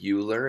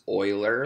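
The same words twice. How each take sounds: First: The name does not begin with 'oy'. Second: The name begins with 'oy', like 'oiler'. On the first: The speaker calls it wrong. "You don't pronounce this name as Euler" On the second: The speaker calls it right. "It's Euler, like someone who like oils something"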